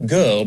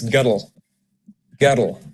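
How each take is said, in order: First: Said in the usual way. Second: Put-on "guddle" as Scottish girl, in two syllables; extra Scottish syllable. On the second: Shown as a demonstration. Coach showing how girl changes, two-syllable Scottish "guddle". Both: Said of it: "you'll have an extra syllable".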